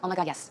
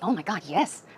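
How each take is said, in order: First: It is said flatly, without strong stress. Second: It is said emphatically, with strong stress.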